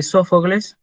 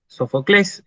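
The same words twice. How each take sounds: First: Said in the usual way. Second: "Sofocles" stressed on the last syllable, -CLES; "Sofocles" the Greek way, so-fo-CLÉS; Greek final-syllable stress. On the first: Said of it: "el nombre de Sófocles es Sofocles en griego". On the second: Shown as a demonstration. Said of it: "es Sofocles en griego".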